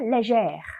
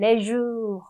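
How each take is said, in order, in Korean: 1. 이 단어는 열린 'zhair' 소리로 끝나요. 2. 이 단어는 약한 'zhuh' 소리로 끝나요. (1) "그러니까 악성을 추가해 주는 거예요" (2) "악성을 붙이지 않고 그냥 음만 붙인다라고 하면 레주 이런 발음이 되잖아요"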